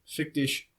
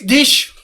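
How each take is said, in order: First: It is said plainly, without yelling. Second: It is yelled harshly, like real German.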